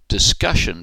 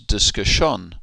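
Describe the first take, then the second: First: The stress falls before the final syllable. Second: The stress falls on the final syllable.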